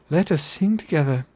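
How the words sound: It is said in a gentle, sweet character voice. "The not goofy voice"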